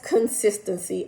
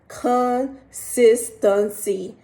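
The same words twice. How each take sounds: First: The word is said at normal speed. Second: The word is said very slowly.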